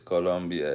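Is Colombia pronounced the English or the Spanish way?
Spanish. The name is pronounced the Spanish way. This is how people from the country say it. The speaker calls it right. "somebody from Colombia says, hey, it's Colombia"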